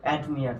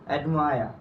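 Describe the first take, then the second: First: The last syllable has an 'ee' vowel. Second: The last syllable has an 'eye' vowel. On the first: The speaker calls it wrong. "যেটাকে আমরা উচ্চারণ করি অ্যাডমিয়ার" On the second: The speaker calls it right. "এখন থেকে আমরা কি বলবো"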